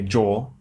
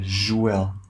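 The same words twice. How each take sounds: First: It begins with a hard J sound. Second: It begins with a soft zh sound. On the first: This is how English speakers say it. "in English, we say Joel" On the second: This is how Portuguese speakers say it. "you say Joel. So it's kind of a softer, like J"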